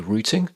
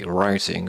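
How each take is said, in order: First: It is said in a British accent. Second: It is said in an American accent. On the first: "because I'm from the U K, I'm going to say routing" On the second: "Americans say routing"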